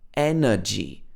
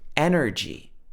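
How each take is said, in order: First: It has a British uh middle vowel with no r. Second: It has an American short r-coloured middle vowel. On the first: "But in the British accent, this would be energy. Uh" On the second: "we've got this er sound, but it's in the middle of the word. It's shorter"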